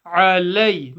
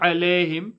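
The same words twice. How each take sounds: First: "Alay" opening from mid-throat, gliding to "ay"; "Alay" as "'a-lay", firm glide; correct ain and diphthong. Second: "alayhim" with plain "leh", no y glide; "alayhim" with the diphthong lost; wrong flat vowel. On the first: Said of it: "Ain from the middle of the throat". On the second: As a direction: show the slip "alayhim" as "alehim". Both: Shown as a demonstration.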